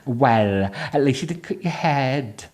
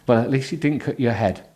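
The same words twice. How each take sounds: First: It is read with a noticeably Welsh accent. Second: It is read in a plain, non-Welsh accent.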